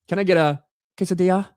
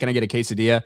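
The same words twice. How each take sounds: First: Quesadilla is said with an exaggerated Spanish accent. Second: Quesadilla is said with a plain English accent. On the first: The speaker calls it wrong. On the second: The speaker calls it right.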